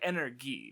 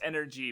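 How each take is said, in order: First: The g is said as a hard g. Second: The g is said like a j sound.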